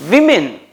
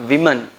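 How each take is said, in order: First: Women said WIM-in, much higher and louder; women with a short WIM; women modelled with force; correct, emphatic. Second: Women said WO-men like men; women with the wrong men ending; mock-wrong women; wrong pronunciation. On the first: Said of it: "but this is". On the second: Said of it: "not women". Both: Shown as a demonstration.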